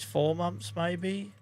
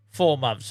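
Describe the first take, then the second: First: "Four months" rising like a question; unsure question. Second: "Four months" falling firmly; settled statement. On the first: Farmer guessing the pigs' ages, questioning rise. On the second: Farmer confirming the pigs' ages, firm falling tune. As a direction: state it, decided. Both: Real, not acted.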